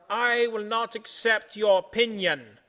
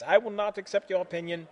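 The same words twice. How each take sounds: First: Loud, slow, emphatic refusal; yelled defiance. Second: Said in the usual way. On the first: A narrator's reading. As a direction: yell it slowly, word by word. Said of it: "yells Centipede".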